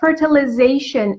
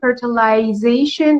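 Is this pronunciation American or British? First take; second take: American; British. First: It is said in an American accent. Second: It is said in a British accent. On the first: "fertilization is American" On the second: "fertilization is British"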